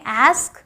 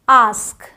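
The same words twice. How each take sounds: First: It has an American flat a vowel. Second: It has a British broad ah vowel.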